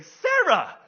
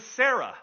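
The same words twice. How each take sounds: First: "Sarah" sung out loud and high; bubbly Sarah. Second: Said in the usual way. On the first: Retold or imitated. Preacher imitates the bubbly secretary's own name, gushing loudly. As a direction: say "Sarah" with exaggerated bubbly cheer. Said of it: "this woman is the most bubbly". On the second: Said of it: "And I should say Sarah".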